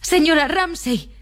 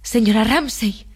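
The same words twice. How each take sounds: First: Much higher, drawn-out cry; high plaintive call without much volume; Lily Briscoe crying out. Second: Restrained cry to someone absent; calling out aloud. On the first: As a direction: call the absent woman's name, pitch soaring. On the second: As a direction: call her name slowly, with restraint. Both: A narrator's reading. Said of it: "gritó en voz alta".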